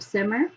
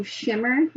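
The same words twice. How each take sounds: First: Said in the usual way. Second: "shimmer" with SH for the opening S; misreading it as "shimmer"; misread word. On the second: Retold or imitated. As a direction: say "shimmer", SH at the start. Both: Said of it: "instead of simmer".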